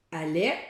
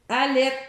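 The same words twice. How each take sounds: First: Said in the usual way. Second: Allait said louder and higher; clipped word. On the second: Shown as a demonstration. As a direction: cut the word short. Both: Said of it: "pour allaitement".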